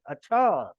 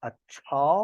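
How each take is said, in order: First: "अच्छा" with a falling tune; intonation on one word. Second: "अच्छा" with a rising tune at the end; Aamir Khan. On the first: Shown as a demonstration. Teacher showing one word's intonation, "अच्छा" falling at the end. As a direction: let the end of "अच्छा" come down. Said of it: "एक ही word है लेकिन उसमें intonation है". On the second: Acted. Teacher quoting a film catchword, "अच्छा" with rising intonation. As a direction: lift the second syllable of "अच्छा" like a question. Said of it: "Aamir Khan के अल्फाज".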